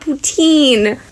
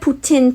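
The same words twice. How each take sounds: First: It is said with an anglophone Ontario pronunciation. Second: It is said with a Quebec French pronunciation.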